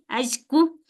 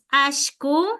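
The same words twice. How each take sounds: First: The middle consonant is a palatal ly sound. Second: The middle consonant is a sh sound. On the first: "bien pronunciado la L, doble L" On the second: "hay unos que decimos ashku"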